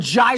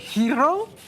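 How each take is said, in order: First: The word begins with a j sound. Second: The word begins with an h sound. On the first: "or gyro?" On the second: "Do you say hero"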